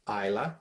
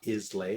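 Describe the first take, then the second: First: The word ends with a plain 'la' sound. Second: The word ends with a 'lay' sound. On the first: The speaker calls it right. "it's pronounced Isla" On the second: The speaker calls it wrong. "not Islay or anything like that"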